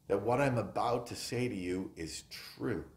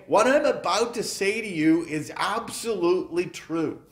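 First: Said in the usual way. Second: Raised, louder, every word pressed; emphatic. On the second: Shown as a demonstration. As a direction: declare "absolutely true" as a firm promise. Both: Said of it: "He's emphatically saying".

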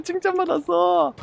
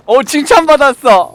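First: 웃음 섞어 되뇌기; 웃으며 흐뭇하게 반복; laughing. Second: 들떠서 큰 소리로; 신나서 자랑하듯; excited. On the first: (웃음 섞인 말투) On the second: 칭찬받고 들뜸. (신이 나서 외치는 말투) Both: Real, not acted.

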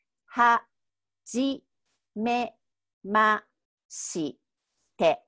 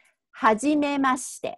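First: Robotic, one syllable at a time. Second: はじめまして run together fast and smooth; はじめまして said quickly as one word; natural, fast. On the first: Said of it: "But that sounds like a robot". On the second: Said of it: "make it a little bit more natural sounding". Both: Shown as a demonstration.

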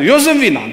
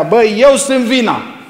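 First: Hammed-up yell, EU hit hard; mock shout at wife. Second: Higher, louder yelled accusation; hammed-up marital yell, EU punched; mock shout at wife. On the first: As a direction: shout it like you're scolding your wife. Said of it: "Ai țipat vreodată așa la ea?". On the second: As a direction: yell it at your wife to win the fight. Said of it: "țipi la ea".

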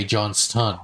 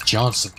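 First: Johnston with the T fully released; over-careful "Johnston", crisp T; emphasized T. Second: Johnson said easily with no T; casual "Johnson", T left out; T dropped. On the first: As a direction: sound out "Johnston" as "Johns-ton". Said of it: "I never say Johnston". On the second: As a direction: drop the T and say "Johnson". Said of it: "way too much effort". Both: Shown as a demonstration.

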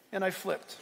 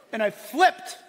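First: Said in the usual way. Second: "flipped" punched loud, voice rising; loud, excited stress on "flipped"; emphatic FLIPPED. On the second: Real, not acted. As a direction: hit "flipped" hard. Repeats the line for effect.

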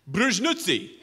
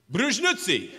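First: Fake Russian word. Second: Fake Russian again. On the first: Faked Russian answer. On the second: Same faked Russian answer.

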